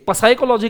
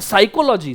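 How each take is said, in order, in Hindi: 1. यह शब्द p की आवाज़ से शुरू होता है। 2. यह शब्द s की आवाज़ से शुरू होता है। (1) "पसाइकोलॉजी कहना चाहिए उसको" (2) "पर कहते नहीं है लोग"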